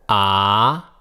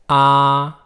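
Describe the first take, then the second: First: The syllable carries the second tone. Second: The syllable carries the first tone.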